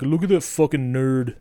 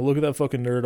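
First: Said in the usual way. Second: Put-on "Look at that fucking nerd" in a light New Zealand accent; a lightly imitated New Zealand accent on "Look at that fucking nerd". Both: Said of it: "but in his New Zealand accent".

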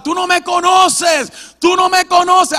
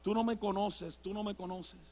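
First: Defiant yelling. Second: Soft, low, worn-out repeating. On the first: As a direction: yell it out at someone far away. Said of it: "Yo le gritaba". (grito desafiante a todo pulmón) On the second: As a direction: keep protesting quietly after tiring out. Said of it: "y todavía en voz baja". (en voz baja, ya cansado) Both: Retold or imitated.

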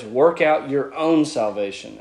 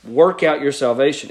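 First: "your own" given added emphasis; stress on YOUR OWN. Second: Said in the usual way. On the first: Shown as a demonstration. Teacher showing the Greek emphasis on that word, stressing "your own". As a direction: lean on "your own" to make it personal. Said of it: "there's this emphasis on that word your".

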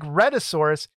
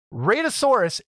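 First: "Rhedosaurus" with a short e first; mistaken pronunciation. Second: "Radosaurus" with a long ay first; intended pronunciation. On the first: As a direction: say "Rhedosaurus" starting like red. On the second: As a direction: say "Radosaurus" starting like raid. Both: Shown as a demonstration. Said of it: "it sounds like Rhedosaurus".

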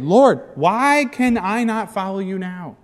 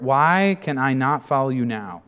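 First: Higher, louder, slow question; frustrated plea. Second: Said in the usual way. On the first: Acted. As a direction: push the question hard. Peter frustrated.

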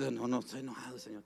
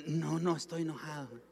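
First: Softer, subdued pretence of not being angry; mildly acted, quiet cover-up; sheepish denial. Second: Higher-pitched pretence of not being angry; put-on innocent denial, pitched up; feigned calm denial. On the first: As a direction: play down the anger to God. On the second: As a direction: act out covering up your anger. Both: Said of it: "Y usted disimula".

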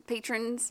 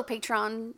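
First: "patrons" with unstressed second syllable, PAY-trunz; usual pronunciation. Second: "Patreon" squeezed into two syllables, PAY-tron; mixed pronunciation. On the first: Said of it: "Patreons or patrons". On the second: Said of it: "She did a mix of the two". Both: Real, not acted.

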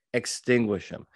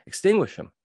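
First: Said in the usual way. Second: Extinguish punched out high and loud; forceful command. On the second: Shown as a demonstration. Coach to witnesses, pressing hard on Extinguish. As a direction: hit Extinguish hard and high, then let it fall. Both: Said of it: "I teach witnesses how to extinguish".

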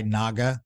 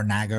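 First: "Naga" as NAH-guh; first pronunciation of Naga. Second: "Naga" rhyming with "bagger"; alternative pronunciation of Naga. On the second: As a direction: say "Naga" with a short A, NAG-uh. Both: Shown as a demonstration. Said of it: "however you say it".

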